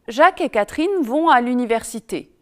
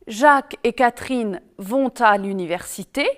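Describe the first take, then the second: First: No linking sound joins vont to à. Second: A linking t sound joins vont to à. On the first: This is everyday speech. "pas de liaison, c'est de la langue courante" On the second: This is formal speech. "on fait la liaison, c'est de la langue soutenue"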